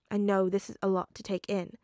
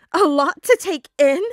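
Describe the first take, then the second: First: Said in the usual way. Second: Much louder, higher echo in disbelief; incredulous shout. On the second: Acted. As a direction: throw the words back in outrage. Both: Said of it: "Peter repeated".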